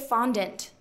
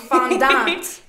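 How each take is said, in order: First: The word has the local pronunciation. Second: The word has a different, non-local pronunciation. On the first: This is how people in the region say it. The speaker calls it right. "we are in the Pacific Northwest. We do say fondant" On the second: This is how people elsewhere say it. The speaker calls it wrong. "not fondant"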